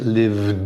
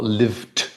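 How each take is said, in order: First: The ending is a voiced d sound. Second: The ending is a voiceless t sound. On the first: The speaker calls it right. "it's a d sound" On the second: The speaker calls it wrong. "not lived"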